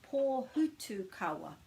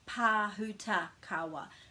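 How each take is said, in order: First: The third syllable is pronounced 'tu'. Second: The third syllable is pronounced 'ta'. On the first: The speaker calls it right. "it's actually Pō ... this is Hutu, not Huta" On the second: The speaker calls it wrong. "you might pronounce that as Pāhutakawa"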